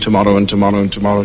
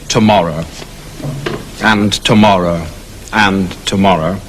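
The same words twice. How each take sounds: First: It is said in a quick skipping rhythm. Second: It is said slowly and heavily.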